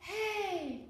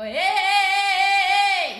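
First: The word is said quietly. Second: The word is said loudly.

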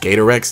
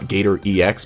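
First: The ending is said as the word Rex. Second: The ending is said as separate letters. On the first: The speaker calls it right. "it's Gator and Rex just smushed together" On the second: The speaker calls it wrong.

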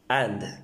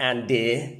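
First: The final vowel is barely heard, only mumbled. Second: The final vowel is fully and clearly pronounced. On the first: The speaker calls it right. "you just mumble it out" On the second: The speaker calls it wrong. "Not andy"

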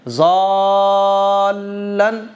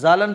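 First: The vowel is drawn out into a doubled L. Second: The L is short and not joined. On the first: The speaker calls it right. "तो खींच के लाम से मिलाना है" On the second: The speaker calls it wrong. "लोग आमतौर पर कैसे पढ़ते हैं, आप लोग भी शायद ऐसे पढ़ते होंगे"

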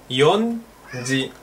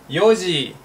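First: It is said with an n before ji. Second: It is said without an n before ji. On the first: The speaker calls it wrong. "Porque sería... ¿Cómo sería? Yonji" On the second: The speaker calls it right. "Esto se dice yoji"

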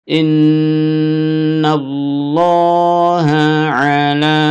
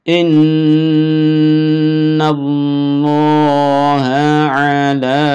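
No difference in how they are said.

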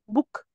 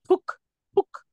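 First: The first b is said plainly, without extra air. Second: The first b is pushed out with extra air. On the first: The speaker calls it right. "بقولها عادي" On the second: The speaker calls it wrong. "كده كده"

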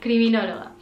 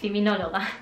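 First: The word is said with a French accent. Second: The word is said with a Spanish accent.

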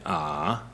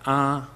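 First: The pitch goes down then up. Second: The pitch stays flat and steady. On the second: "There's level"

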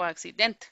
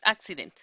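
First: The stress falls on a later syllable. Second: The stress falls on the first syllable. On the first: The speaker calls it wrong. "no es accident" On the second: The speaker calls it right. "la primera es fuerte"

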